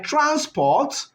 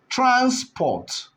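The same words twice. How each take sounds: First: Said in the usual way. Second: "transport" in two separate beats, trans, then port; higher-pitched "transport", cut into trans and port; split into syllables. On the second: Shown as a demonstration. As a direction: break "transport" after trans with a short pause. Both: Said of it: "It's possible to split them into two".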